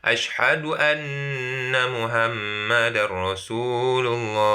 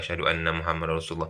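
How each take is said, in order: First: It is said loudly. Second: It is said quietly.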